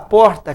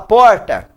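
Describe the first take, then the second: First: The r is softened, neutral style. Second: The r is strongly drawn out, regional style. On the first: The speaker calls it right. "Vamos dar uma amenizada. Vamos falar porta" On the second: The speaker calls it wrong. "Ou você falar"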